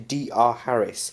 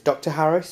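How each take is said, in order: First: The first part is said as two letters. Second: The first part is said as the word doctor. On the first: The speaker calls it right. "It's actually D R Harris" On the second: The speaker calls it wrong. "It looks like um, the pronunciation is Doctor Harris and Co, but it's not"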